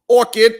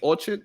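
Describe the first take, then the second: First: The second syllable sounds like 'kid'. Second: The second syllable sounds like 'chard'. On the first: The speaker calls it right. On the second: The speaker calls it wrong. "Because I was saying orchard, maybe"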